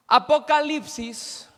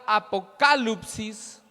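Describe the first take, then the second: First: Said in the usual way. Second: "apocalypsis" said slowly, stressed on the second A, a-po-KA-lyp-sis; Greek pronunciation. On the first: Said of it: "viene de la palabra griega". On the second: Shown as a demonstration. Teacher giving the congregation the Greek word, "apocalypsis" slowly stressed on KA. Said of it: "con tilde o acento en la segunda A".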